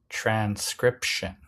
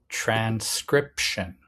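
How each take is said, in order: The two takes are said the same way.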